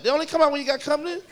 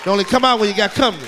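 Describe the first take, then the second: First: Said in the usual way. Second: Fast, loud punchline; punchy shout. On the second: Acted. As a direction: bark it out quick.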